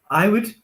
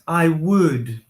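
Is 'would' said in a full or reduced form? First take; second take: reduced; full. First: The word would is short and weak. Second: The word would is full and strong. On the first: "very short" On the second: "we also have the strong form"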